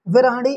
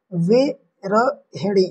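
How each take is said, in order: First: विरहणी run together without the middle "hi"; wrong spelling read. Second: विरहिणी very slowly as "vi-ra-hi-ni"; slow spelling-out of विरहिणी with pauses between syllables; correct form, syllabified. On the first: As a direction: say विरहणी quickly as "vi-raa-ni", the wrong form. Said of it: "इस तरीके से नहीं लिखा जाता". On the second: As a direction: break विरहिणी into drawn-out syllables, sounding the "hi". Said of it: "इस प्रकार से लिखा जाता". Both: Shown as a demonstration.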